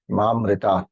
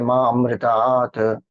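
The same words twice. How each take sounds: First: The vowels run together with no extra vowel. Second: The elided vowel after the avagraha is pronounced separately. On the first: The speaker calls it right. "Avagraha is not pronounced" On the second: The speaker calls it wrong. "we don't say Ma amritat. Some people do"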